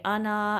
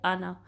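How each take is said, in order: First: The final vowel is stretched long. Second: The final vowel is short. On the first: The speaker calls it wrong. "आना ऐसे नहीं" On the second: The speaker calls it right. "आना इतना ही पढ़ेंगे, लंबा नहीं करेंगे"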